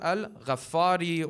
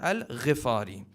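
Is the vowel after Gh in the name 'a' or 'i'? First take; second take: a; i. First: The vowel after Gh sounds like a. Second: The vowel after Gh sounds like i. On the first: The speaker calls it wrong. "Many times people will pronounce the name as" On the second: The speaker calls it right. "The correct pronunciation is"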